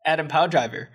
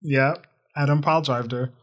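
First: "Pow" hit as a punchline inside "Adam Pow Driver"; pun on Driver. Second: "Powell" stressed and slowed to spell out the pun. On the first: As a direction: land the word "Pow" like a joke. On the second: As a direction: stress "Powell" so "drived her" lands as the joke. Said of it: "I was purposely spacing that out". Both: Shown as a demonstration.

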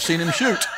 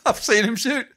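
First: A laugh slipping into the officer's words; officer's line half laughed; chuckling through the quote. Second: Higher, delighted repeat of the punchline; relishing the punchline a second time; laughing repeat. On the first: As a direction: quote it while starting to laugh. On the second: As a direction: savour it again, high and amused. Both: Retold or imitated.

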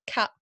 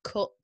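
First: "cap" said for cup with an open southern vowel; posh London vowel. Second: "cup" with a rounded northern English vowel, like "coop". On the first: Midlander shows the southerners' word, "cap" with an open London vowel. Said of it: "your posh London accents. They say". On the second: Midlander contrasts with London, "cup" in the rounded northern vowel. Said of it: "instead of". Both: Shown as a demonstration.

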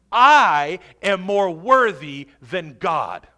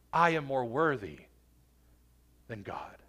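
First: Loud, slow, hammering the I; defiant self-exaltation. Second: Low, soft, dropping to near whisper; hushed grave claim. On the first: Preacher mimics the unforgiving believer, loud and defiant. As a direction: proclaim it boldly, word by word. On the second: Preacher soberly repeats the unforgiving believer's claim, hushed. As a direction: let it sink, pausing before the last words. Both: Acted.

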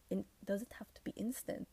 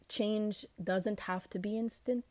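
First: Unvoiced quick whispered question. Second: Said in the usual way. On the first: Shown as a demonstration. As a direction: whisper it to yourself, testing. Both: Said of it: "Is that good English?".

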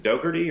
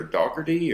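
First: "Dougherty" said DOH-ker-dee; long-O pronunciation. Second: "Dougherty" said DOCK-er-dee; short-O pronunciation. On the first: Host asks guest how to say the town, long-O pronunciation. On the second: Host offers another way to say the town, short-O pronunciation. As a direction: say "Dougherty" with an open first vowel as in dock. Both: Shown as a demonstration. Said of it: "how to say that town".

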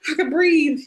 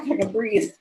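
First: Higher and louder, breathing free at last; "I can breathe" pitched up high and louder, falling on breathe; relieved outburst. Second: Said in the usual way. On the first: Retold or imitated. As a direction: let the relief burst out. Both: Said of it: "I was proud of myself going".

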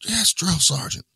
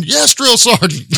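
First: High, slow barked reply; barked military recruit reply. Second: High, slow barked recruit reply; barked military recruit reply. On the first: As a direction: snap it back like a scared recruit. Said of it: "He's like". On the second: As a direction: answer like a scared recruit. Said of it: "I'm like". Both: Retold or imitated.

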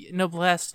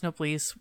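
First: Noblesse said as "no-BLESS"; a short e ending Noblesse, as in "dress"; short-e pronunciation. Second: Noblesse said as "no-BLEESE"; a long ee ending Noblesse, as in "fleece"; long-ee pronunciation. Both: Shown as a demonstration. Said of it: "however you wanna say it".

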